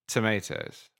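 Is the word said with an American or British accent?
American. It is said with an American accent.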